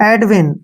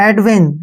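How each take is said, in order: No difference in how they are said.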